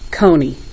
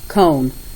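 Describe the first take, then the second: First: Long O sound followed by an added ee syllable. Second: Long O sound with no final ee syllable. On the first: The speaker calls it wrong. "Now let me tell you what some people are doing" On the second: The speaker calls it right. "But it should be K-own"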